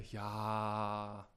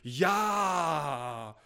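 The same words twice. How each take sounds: First: It is said weakly, pressed and quiet. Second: It is said loudly and forcefully. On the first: The group is not really cheerful. The speaker calls it wrong. "gepresst blökend wie eine magenschwache Hammelherde" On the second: The group is afraid that being quiet is a sin. The speaker calls it right. "verschreckt und mittlerweile im Glauben, Mangel an Lautstärke sei Sünde"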